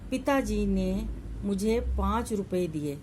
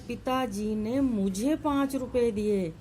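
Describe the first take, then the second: First: The stress falls on the word पिताजी. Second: The stress falls on the word मुझे. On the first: Father gave it, not anyone else. "यहाँ पर बल पिताजी के ऊपर है" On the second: It was given to me, not anyone else. "यानी पिताजी ने मुझे दिए हैं, किसी और को नहीं दिए"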